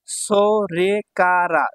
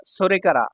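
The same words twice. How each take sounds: First: সোরেকারা very slow, every syllable held. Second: Said in the usual way. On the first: Shown as a demonstration. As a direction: stretch সোরেকারা into separate beats. Teacher sounds out new word.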